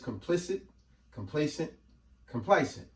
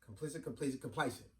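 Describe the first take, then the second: First: The three words are said slowly. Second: The three words are said quickly.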